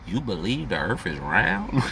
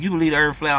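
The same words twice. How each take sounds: First: Slow, deliberate counter-question; slow pointed comeback. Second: Louder, higher, incredulous challenge; mocking question. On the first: Retold or imitated. Answering the flat-earth question with a slow pointed retort. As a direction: lean on each word to turn it around. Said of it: "I'ma say". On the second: Retorting to someone who asks if earth is flat, mocking challenge. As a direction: fire the question back in disbelief. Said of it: "if a motherfucker ask me".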